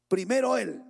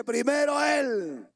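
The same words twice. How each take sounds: First: Said in the usual way. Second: Loud, slow "Primero Él" with "Él" hit hard; emphatic shout. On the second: Shown as a demonstration. Preacher insisting to the congregation that God comes first, shouting. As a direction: proclaim "Primero Él" slowly, stressing "Él".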